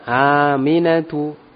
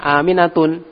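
First: The name ends in a plain u vowel. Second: The name ends in an added n sound. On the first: The speaker calls it right. "Tidak boleh ditanwin" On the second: The speaker calls it wrong. "Tidak boleh antum baca Aminatun ya"

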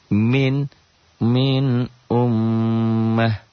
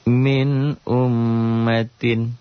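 First: The word ends in a stopped 'ah' sound. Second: The word ends in a full '-tin' sound. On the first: The reading stops at this word. "Kalau dihentikan begitu kan" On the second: The reading continues into the next word. "Tapi kita baca secara lengkap aja"

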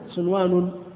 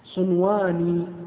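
First: The final n takes a case ending, not i. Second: The final n is followed by an i vowel. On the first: It refers to many offshoots. "جمع" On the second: It refers to two offshoots. "هذا مثنى"

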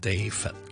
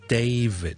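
First: The v and final d are said less clearly. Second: The v is voiced and the final d released. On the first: The speaker calls it wrong. "我哋香港人好多时候就读David" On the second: The speaker calls it right. "比较好啲嘅读法咧就系David"

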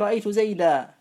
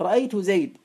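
First: The last word ends with a long 'a' vowel. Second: The last word ends bare, with no final vowel. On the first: This is the usage of most Arabs. "تنوين الاسم المنصوب" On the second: This is the usage of the Rabi'a tribe. "الوقف بالحذف"

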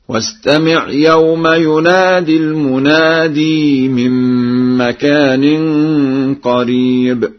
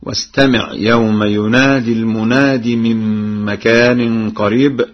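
First: Almunadi is said with a long final vowel. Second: Almunadi is said without a long final vowel.

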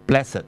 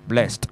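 First: The word is said as two syllables. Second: The word is said as one syllable. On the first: "如果佢作為一個adjective 咧，佢就係讀blessed 嘅" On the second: "就係輕音嘅blessed"

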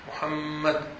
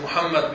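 First: The doubled m is held with a nasal hum. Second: The doubled m is rushed without a hum. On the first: The speaker calls it right. "وأتي بالغنة في كلمة محمد" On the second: The speaker calls it wrong. "ليس محمد هكذا محمد بسرعة"

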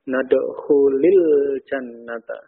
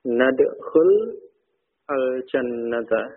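First: Nadkhul links with an added i vowel. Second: Nadkhul ends in a bare l, no added vowel. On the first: "supaya tidak bertemu dua sukun" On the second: "asalnya jazm, ya, dengan tanda sukun"

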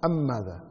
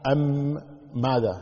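First: The two m sounds merge into one doubled m. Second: The two m sounds are pronounced separately. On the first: The speaker calls it right. "على طول مباشرة" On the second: The speaker calls it wrong. "ولا تقول أم ماذا"

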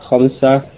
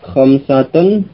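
First: The word ends in a bare -ah ending. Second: The word ends with the full -atun ending.

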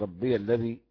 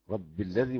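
First: The final ya is pronounced with a vowel before alladhi. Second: The final ya sound is dropped before alladhi. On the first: "والباقي" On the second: "حمزة يسكن ياء الإضافة"

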